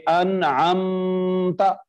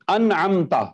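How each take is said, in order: First: अनअमता में अम की मीम पर रुककर, धीरे; अनअमता को मीम पर ठहराकर गलत पढ़ें; wrong held meem. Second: Said in the usual way. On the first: Shown as a demonstration. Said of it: "यूं नहीं पढ़ेंगे". (मीम पर रुकने वाली गलत अदायगी) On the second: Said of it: "यहां पे क्या होना चाहिए".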